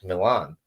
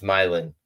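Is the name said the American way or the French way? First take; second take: French; American. First: The name is said with a French-sounding pronunciation. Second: The name is said with an American English pronunciation. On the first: This is how an outsider would guess the name. The speaker calls it wrong. "you would expect it to be French" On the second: This is how locals actually say the name. The speaker calls it right. "But it's Milan"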